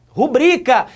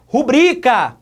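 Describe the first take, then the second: No difference in how they are said.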